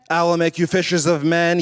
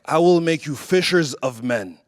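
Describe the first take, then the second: First: It sounds camp, sassy and flamboyant. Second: It sounds strong, assertive and commanding.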